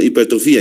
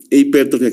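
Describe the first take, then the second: First: "Hipertrofía" with stress on the í, hiper-tro-FÍ-a; accent on the i. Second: "Hipertrofia" read as written, stress on -tro-, ending -fia; misspelled reading. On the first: Teacher explaining the missing accent mark, stress on fí. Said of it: "lleva tilde en la I". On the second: Teacher reading the word misspelled on the board, stress on tro. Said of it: "sí, está mal escrito". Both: Shown as a demonstration.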